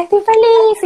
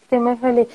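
First: "Estoy feliz" burst out much higher and louder; bright joyful exclamation; truly happy. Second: Deadpan fake happiness; flat, unconvincing "Estoy muy feliz". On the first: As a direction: beam and let the joy explode on "feliz". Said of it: "tú tienes que estar". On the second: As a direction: say you're happy without meaning it. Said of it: "con esa postura y toda". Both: Shown as a demonstration.

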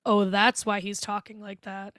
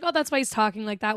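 First: Slower, understated penny-drop; dawning realization. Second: Casual first take. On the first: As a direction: let the sinister truth slowly sink in. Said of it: "And then it's like". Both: Retold or imitated.

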